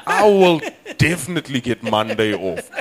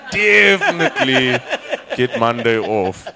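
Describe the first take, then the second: First: High, loud realisation; pleased, certain announcement; dawning triumph. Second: "Definitely" drawn out high and loud; slow, hammered repeat stressing "Definitely"; emphatic triumph. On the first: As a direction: land the punchline with conviction. Punchline, first take. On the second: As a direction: stretch "Definitely", then drop for the rest. Punchline repeated with more force. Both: Acted.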